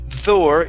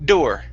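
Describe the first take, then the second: First: The word starts with a soft, th-like D. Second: The word starts with a hard, crisp D. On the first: The speaker calls it wrong. "you use a Spanish D. ... You're saying Thor" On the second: The speaker calls it right. "it's d door ... just like the word did"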